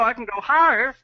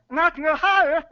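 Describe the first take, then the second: First: Higher pitch, still in the throat; going higher. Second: Much higher pitch from the throat. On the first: Guest demonstrating throat placement, higher. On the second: Guest pushing his pitch up in a demo, much higher. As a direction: climb way up, keep it in the throat. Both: Shown as a demonstration.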